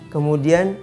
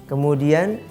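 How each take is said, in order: No difference in how they are said.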